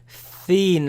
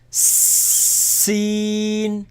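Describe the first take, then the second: First: It begins with a th sound, tongue between teeth. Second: It begins with a sharp s sound, tongue hidden. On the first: The speaker calls it wrong. "Don't put your tongue out of your mouth with this. Don't say thin" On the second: The speaker calls it right. "but seen"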